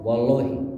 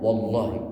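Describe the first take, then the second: First: The L is light and thin. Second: The L is heavy and dark. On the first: This is how a Sundanese speaker says it. The speaker calls it wrong. "Kalau kita orang Sunda masih ngomong" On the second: The speaker calls it right. "tafkhimnya itu benar-benar pas"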